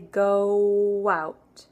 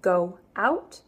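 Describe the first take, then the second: First: A small W sound links the two vowels. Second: The two vowels are joined without a W sound. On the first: The speaker calls it right. "Little W in there" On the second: The speaker calls it wrong. "instead of"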